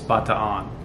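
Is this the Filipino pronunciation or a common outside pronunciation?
Filipino. It is said the way locals in the Philippines say it. "The way that it's pronounced in the Philippines"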